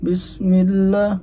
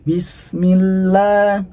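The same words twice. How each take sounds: First: The i vowel is said with a closed mouth. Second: The i vowel is said with an open mouth. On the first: The speaker calls it wrong. "kalau nggak dibuka" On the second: The speaker calls it right. "hadapkan nih bibir kita ke bawah, buka aja"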